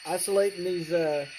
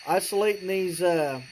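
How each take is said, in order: Both takes have the same delivery.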